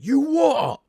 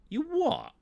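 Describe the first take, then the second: First: It sounds intense and confrontational, ready to fight. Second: It sounds mildly puzzled and low in intensity. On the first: The listener is about to start a fight. "then shit's about to go down" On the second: The listener finds the remark stupid. "just as a simple "what the fuck,""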